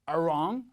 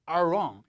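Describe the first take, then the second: No difference in how they are said.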